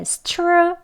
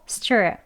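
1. s 뒤의 t는 평범한 t예요. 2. s 뒤의 t는 된 ch 소리처럼 들려요. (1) "stir 아니고" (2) "약간 쌍지읒 소리 가까운 소리로 더 발음되어야 합니다"

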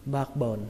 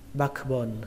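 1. Âm k ở giữa bị lược bỏ. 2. Âm k ở giữa được phát âm rõ ràng. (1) "đọc nhanh thì các bạn không cần âm k" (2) "các bạn có thể đọc có âm k"

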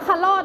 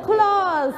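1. คำนี้ลงท้ายด้วยเสียง t สั้นๆ แบบหยุดกั้น 2. คำนี้ลงท้ายด้วยเสียง z ที่สั่นๆ

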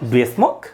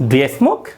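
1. 'Do you' মিশে গিয়ে একটি সংক্ষিপ্ত এক দলে পরিণত হয়। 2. 'Do you' মিশে গিয়ে একটি সংক্ষিপ্ত এক দলে পরিণত হয়।

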